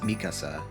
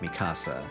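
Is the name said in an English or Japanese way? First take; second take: Japanese; English. First: The name is said with a Japanese pronunciation. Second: The name is said with an English pronunciation. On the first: "in Japanese, I know it's pronounced Mikasa" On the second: "sort of defaulted to pronouncing it Mikasa. So I guess that probably is just an American thing or like an English thing"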